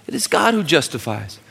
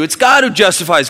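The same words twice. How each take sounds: First: Said in the usual way. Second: Loud, high, with GOD punched; preached emphasis. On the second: Acted. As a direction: proclaim it, lean on God. Repeat preached after verse read.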